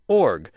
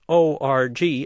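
First: It is said as one single syllable. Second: It is spelled out as three separate letters. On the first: The speaker calls it right. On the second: The speaker calls it wrong.

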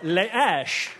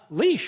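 First: It is said with a French accent. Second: It is said with an ordinary English accent. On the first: It names something found in a French urn. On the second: It names what you walk a dog with.

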